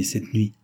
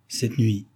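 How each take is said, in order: First: Said in the usual way. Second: Mildly surprised echo. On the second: A narrator's reading. Mistress echoing her maid's words, mildly surprised. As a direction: repeat it with a touch of surprise. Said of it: "répéta André avec surprise".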